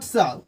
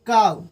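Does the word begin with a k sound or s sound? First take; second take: s sound; k sound. First: The word begins with an s sound. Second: The word begins with a k sound. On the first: The speaker calls it wrong. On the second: The speaker calls it right.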